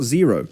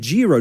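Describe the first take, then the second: First: The name begins with a Z sound. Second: The name begins with a J sound. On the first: The speaker calls it wrong. "people are saying it's J pronounced as a Z" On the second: The speaker calls it right. "it said Jiro"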